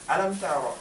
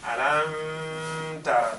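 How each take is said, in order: First: The m is pronounced plainly, with no nasal hum. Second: The m is hidden and held with a nasal hum. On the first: The speaker calls it right. "We just read it naturally" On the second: The speaker calls it wrong. "I don't say alam tara. That's a big mistake"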